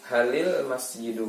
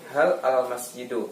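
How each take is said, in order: First: Hal and al are joined by an i sound. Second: Hal and al are said apart without a vowel. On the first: The speaker calls it right. "sukun yang pertama itu jadi kasrah supaya bisa dibaca" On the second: The speaker calls it wrong. "nggak bisa dibaca kan?"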